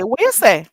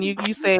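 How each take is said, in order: First: What you say, with the are dropped; patois what you say. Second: Said in the usual way. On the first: Shown as a demonstration. Teacher showing how to ask what are you saying. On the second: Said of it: "And if you wanna say".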